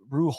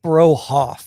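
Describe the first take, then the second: First: The syllables are clipped short and quick. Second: The syllables are drawn out and not clipped. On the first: The speaker calls it right. "like quick quick cuts there" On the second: The speaker calls it wrong.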